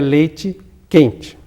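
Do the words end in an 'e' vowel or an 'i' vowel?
i vowel. The final vowels are raised to an i sound. This is how it is said in the north. "o E tem a tendência a passar para I"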